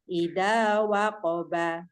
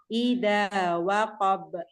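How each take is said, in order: First: The last word ends with a vowel. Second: The last word ends on a stopped consonant. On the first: The reading continues without stopping. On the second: The reading stops at this word.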